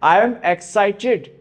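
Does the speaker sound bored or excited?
excited. It is said with lively, eager energy. The speaker is genuinely excited.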